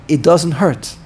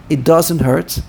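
No difference in how they are said.

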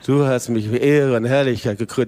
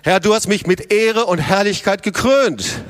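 First: It is said flatly, like a sleepy liturgical prayer. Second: It is said with confident, full energy.

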